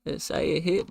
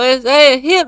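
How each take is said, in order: First: Said in the usual way. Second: Louder and higher, exasperated repeat; complaining loudly, insisting it hit; frustrated outburst. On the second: Real, not acted. Man complaining the payment won't show, frustrated and loud.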